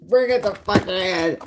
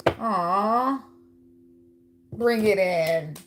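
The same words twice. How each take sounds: First: Slow, louder, mock-bossy demand; playful bossy order to hug, louder; insistent hug demand. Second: Slow, coaxing invitation to a hug. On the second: Acted. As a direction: draw them in gently and slowly. Offering a hug to the Virgo.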